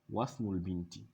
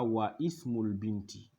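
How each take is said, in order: First: The 'i' is dropped and 'wa' links straight on. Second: The 'i' of ismul is pronounced after 'wa'. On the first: The speaker calls it right. "on dira" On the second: The speaker calls it wrong. "on ne dira pas"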